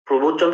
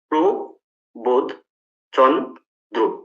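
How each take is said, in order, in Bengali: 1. নামটি একটি মসৃণ শব্দ হিসেবে বলা হয়। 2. নামটি দলগুলোর মাঝে বিরতি দিয়ে ভেঙে বলা হয়। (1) "প্রবোধচন্দ্র আমি উচ্চারণ করছি" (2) "ধ্বনি খণ্ড খণ্ড করে যদি ভাঙি"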